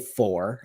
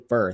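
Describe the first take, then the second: First: The vowel is a full rounded 'or' sound. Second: The vowel is reduced to an 'ur' sound. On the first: "I don't say for" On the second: "It's such a Midwest thing"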